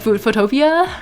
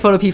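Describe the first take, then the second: First: The word ends rhyming with 'utopia'. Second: The word ends with a separate 'pea' sound. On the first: "maybe it's like Utopia, like Photopia" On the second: "I said it like Photopea for a while"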